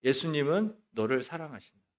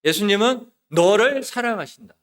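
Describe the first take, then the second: First: Softer, restrained declaration; proclamation. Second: Louder, higher climactic declaration; proclamation. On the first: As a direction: declare it softly and evenly. (나직하게 선포하듯) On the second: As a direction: lift the voice and proclaim it with force. (크고 높게 힘주어 선포) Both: Retold or imitated. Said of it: "이런 말씀을 선포했어요".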